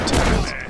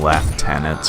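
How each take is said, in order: First: It is said the American way, like loo-tenants. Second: It is said the British way, like lef-tenants.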